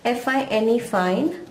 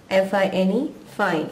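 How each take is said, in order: First: एफ़ आई एन ई fine spelled slowly, ending on a rise; spelled out, rising. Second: एफ़ आई एन ई fine spelled evenly, ending on a fall. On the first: Teacher spelling the first fine for students, rising at the end. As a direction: spell out letter by letter, then lift fine as if more follows. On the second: Teacher spelling the second fine for students, falling to finish. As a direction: spell it out and drop fine to close it off. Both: Shown as a demonstration. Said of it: "same pronunciation".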